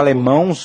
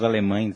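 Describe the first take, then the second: First: The word ends in an -ãos sound. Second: The word ends in an -ães sound. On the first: The speaker calls it wrong. "Eu falei, eu falei os alemãos" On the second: The speaker calls it right. "mas é os alemães"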